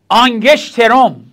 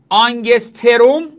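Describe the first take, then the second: First: It is said with an sh before the t. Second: It is said with an s before the t. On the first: "طرفای آلمان اینا به سین میگن شین" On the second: "یک آنگستروم"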